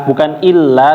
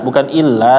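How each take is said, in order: Both takes have the same delivery.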